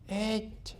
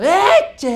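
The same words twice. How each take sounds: First: The word is said softly and gently. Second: The word is shouted at full volume. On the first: "y suavito" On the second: "terminaba gritando"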